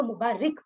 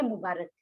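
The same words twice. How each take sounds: First: मुबारिक with an "i" in the last syllable, "mu-baa-rik"; common mispronunciation. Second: मुबारक with an "a" in the last syllable, "mu-baa-rak"; correct pronunciation. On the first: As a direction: say मुबारिक the mistaken way, ending in "-rik". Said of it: "बहुत से लोग इसको मुबारिक पढ़ते हैं". (मुबारिक, आख़िर में "रिक" वाला ग़लत तलफ़्फ़ुज़) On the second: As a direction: say मुबारक properly, ending in "-rak". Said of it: "असल लफ्ज है मुबारक". (मुबारक, आख़िर में "रक" वाला सही तलफ़्फ़ुज़) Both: Shown as a demonstration.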